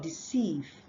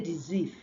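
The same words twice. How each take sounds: First: The middle consonant is a hissing s sound. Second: The middle consonant is a buzzing z sound. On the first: The speaker calls it right. "instead of deceive" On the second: The speaker calls it wrong. "People exchange this sound for the z sound. They say deceive"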